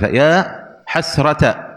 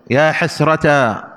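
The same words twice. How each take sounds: First: "حسرة" said hasrata with short final a; alif dropped. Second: "حسرتا" slowly held on final aa; long final alif. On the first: Teacher showing it without alif, "حسرة" said hasrata, short ending. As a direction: end "حسرة" on a brief -ta. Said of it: "هكذا بدون ألف". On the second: Teacher showing the alif form, "حسرتا" slow with long aa. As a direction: stretch the last aa of "حسرتا". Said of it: "إنما هو الألف". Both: Shown as a demonstration.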